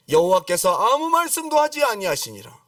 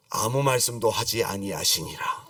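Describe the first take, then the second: First: Raised, louder proclamation of the verse; forceful scripture. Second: Low, slow solemn quotation; solemn scripture. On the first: Preacher repeating God's silence to the congregation, forceful proclamation. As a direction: declare it high and strong. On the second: Preacher quoting God's silence after a promise, solemn and low. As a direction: drop low and draw out the verse. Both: Acted.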